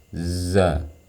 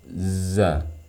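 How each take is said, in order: Both takes have the same delivery.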